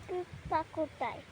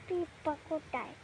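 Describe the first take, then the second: The two takes are said the same way.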